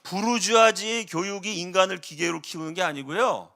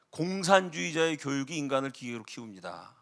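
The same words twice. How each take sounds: First: 부르주아지의 stressed as the wrong subject, falling. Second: 공산주의자의 stressed as the right subject, softer, rising. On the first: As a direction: lean on 부르주아지의 to reject it. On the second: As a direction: lean on 공산주의자의 as the correction. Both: Shown as a demonstration. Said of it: "주어가 틀렸어요".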